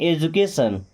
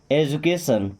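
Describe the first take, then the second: The two takes are said the same way.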